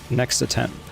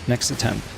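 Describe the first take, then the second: Both takes have the same delivery.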